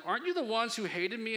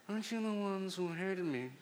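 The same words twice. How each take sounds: First: Said in the usual way. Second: Italian mobster voice. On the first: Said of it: "I should reread that". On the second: Pretend. Preacher jokily rereads Jephthah's challenge, mock Italian mobster voice. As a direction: put on a mock Italian gangster accent. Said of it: "in an Italian mobster voice".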